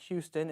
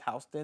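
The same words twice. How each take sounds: First: The name is said the Texas way. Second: The name is said the New York way. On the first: It names the place in Texas. "coming from a certain area like Houston" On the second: It names the place in New York. "here it's Houston in New York"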